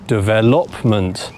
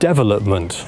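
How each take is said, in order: First: The stress is on the third syllable. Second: The stress is on the first syllable. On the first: "put it on the third syllable" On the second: "put the stressed syllable on the first syllable"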